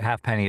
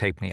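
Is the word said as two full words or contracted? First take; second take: full words; contracted. First: It is said as two full words. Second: It is contracted, sounding almost like hey penny.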